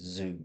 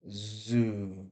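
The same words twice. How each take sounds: First: Said in the usual way. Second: Zoo drawn out long from z to oo; exaggerated sound. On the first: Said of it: "really it's just zoo". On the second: Shown as a demonstration. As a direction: overdo zoo, holding each sound. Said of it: "I'm exaggerating there".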